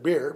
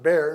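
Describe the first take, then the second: First: The vowel sounds like the word 'beer'. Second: The vowel sounds like the word 'bear'. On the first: The speaker calls it wrong. "instead of beer" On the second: The speaker calls it right. "I prefer to pronounce it bear"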